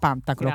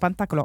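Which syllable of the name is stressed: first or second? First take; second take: first; second. First: The stress falls on the first syllable. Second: The stress falls on the second syllable. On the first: The speaker calls it right. "ma si chiama Pantaclo ... l'accento sulla A" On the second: The speaker calls it wrong. "non si chiama Pantaclo"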